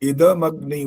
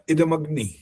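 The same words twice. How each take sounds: First: The d sound is full, with its vowel. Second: The d sound is clipped without its vowel. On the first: The speaker calls it right. "द पूरा है यहाँ पर, हलंत नहीं है।" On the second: The speaker calls it wrong. "जब इदमग्नि बोलते हो ना, इदमग्नि, तब गलत हो जाता है वो।"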